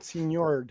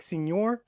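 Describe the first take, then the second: First: "Senor" as seen-YORD, with a final d; señor ending like nerd. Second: "Senor" as seen-YOR, no final d; Spanish señor. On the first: Co-host explaining the name as one word, señor with a d. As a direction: add a d to the end of "Senor". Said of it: "but Senor". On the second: Co-host explaining the name's pun, Spanish señor. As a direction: say "Senor" with ny and an open r ending. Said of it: "It's supposed to be, like". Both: Shown as a demonstration.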